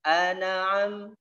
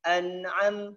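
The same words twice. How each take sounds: First: The n sound is held in the mouth. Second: The n sound resonates through the nose. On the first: The speaker calls it wrong. "Tidak boleh" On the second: The speaker calls it right. "taruh di hidung, an'am, nah, seperti itu"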